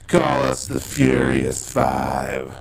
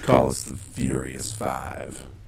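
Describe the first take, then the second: First: It is said louder, with more force. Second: It is said at a normal, quieter volume.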